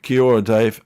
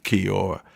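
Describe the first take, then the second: First: "Kia ora" said louder, stress on "Kia"; attempting the greeting. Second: Said in the usual way. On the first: Shown as a demonstration. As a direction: give "Kia ora" a careful try. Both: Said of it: "I can't even say it properly".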